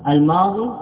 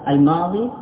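No difference in how they are said.

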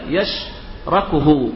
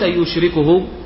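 First: The verb begins with ya, as yashrakuhu. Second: The verb begins with yu, as yushrikuhu. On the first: It means to help or share with him. The speaker calls it right. "هكذا يشركه" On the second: It means to associate a partner with him. The speaker calls it wrong. "وليس يشركه"

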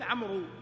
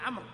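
First: The name ends with a long 'oo' vowel. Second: The name ends without a long vowel. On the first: The speaker calls it wrong. "فلا يصح أن تقول عمرو" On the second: The speaker calls it right. "تقول عمرو"

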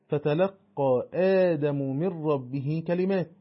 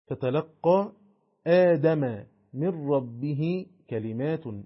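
First: Adam ends in 'u', kalimat ends in 'in'. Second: Adam ends in 'a', kalimat ends in 'un'. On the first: Adam is the one who receives the words. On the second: The words are what reach Adam.

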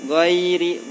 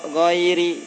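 No difference in how they are said.

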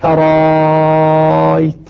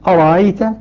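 First: The second glottal stop becomes a very long 'a'. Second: The second glottal stop is softened, not fully closed. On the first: "مع المد المشبع 6 حركات" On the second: "نافع يسهل الهمزة يبقيها لكنها مسهلة"

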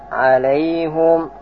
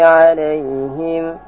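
First: The word ends with a short -hum. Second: The word ends with a short -him. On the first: "kemudian baca alaihum" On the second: "bisa membaca bermacam-macam qiraah"

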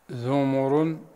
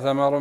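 First: Th and m both take the vowel u. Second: Th and m both take the vowel a. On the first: It is the plural of thimar, like kitab and kutub. "بضم الثاء والميم" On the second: It is the plural of thamara, like baqara and baqar. "بفتح الثاء والميم في الحرفين"

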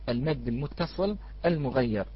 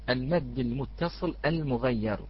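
Both takes have the same delivery.

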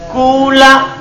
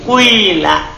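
First: The first vowel is a pure u sound. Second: The first vowel blends a u into i. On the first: "Boleh ikhlas domma" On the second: "Boleh tidak ikhlas"

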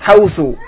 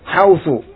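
The two takes are said the same way.

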